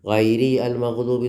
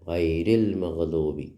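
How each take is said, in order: First: The alif is pronounced, separating the two words. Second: The alif is silent, joining the two words. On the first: The speaker calls it wrong. "എന്ന് ഓതാൻ പാടില്ല" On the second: The speaker calls it right. "ആലിഫ് ഉച്ചരിക്കുന്നില്ല"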